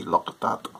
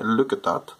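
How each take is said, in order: First: Northern Irish vowels, 'look' nearer 'lock'; Northern Irish accent. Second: Said in the usual way. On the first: Shown as a demonstration. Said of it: "it'd be". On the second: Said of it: "if I were to say".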